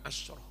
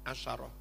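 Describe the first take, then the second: First: No vowel follows the 'sh' sound. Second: A vowel follows the 'sh' sound. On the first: The speaker calls it wrong. "bukan asroh" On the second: The speaker calls it right. "membacanya pakai fathah sin"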